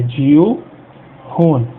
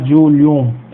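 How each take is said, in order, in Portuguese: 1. O L e o H são pronunciados separadamente. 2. O L e o H se fundem em um único som palatal. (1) "a gente separa o L do H, né, o H a gente pronuncia" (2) "A gente não vai falar Julium"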